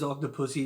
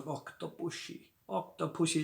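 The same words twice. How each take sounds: First: Said in the usual way. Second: Put-on soft, slurred Indian Connery accent with "pushy" in Octopussy; Indian-tinged Sean Connery accent. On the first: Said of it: "the way he says Octopussy". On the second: Reviewer imitates Kamal Khan saying Octopussy, Indian Connery accent. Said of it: "like an Indian version of Sean Connery".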